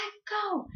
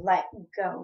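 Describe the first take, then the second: First: High-pitched mock-crying wail; crying plea. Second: Retold firm order to release the arm; firm demand. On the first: Crying niece begging aunt to release her, high wail. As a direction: retell it as a high, drawn-out tearful plea. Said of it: "I started crying more". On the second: Niece to aunt grabbing her arm, firm demand.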